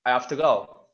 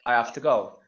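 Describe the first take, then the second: First: The h in 'have' is dropped. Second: The same.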